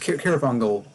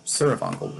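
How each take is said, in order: First: The name begins with a K sound. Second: The name begins with an S sound. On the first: The speaker calls it wrong. "not Kirafungal" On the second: The speaker calls it right. "Surafungal, not Kirafungal"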